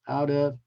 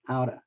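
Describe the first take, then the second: First: Both words are said fully and separately. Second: The words merge into one reduced word.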